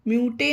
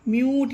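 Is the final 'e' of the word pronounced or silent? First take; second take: pronounced; silent. First: The word ends with an extra 'e' vowel. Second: The word ends on the 't' sound. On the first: The speaker calls it wrong. "इसे म्यूटे नहीं पढ़ेंगे, ये पढ़ना गलत होगा।" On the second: The speaker calls it right. "तो इसमें ई silent रहता है, तो इसे म्यूट पढ़ेंगे।"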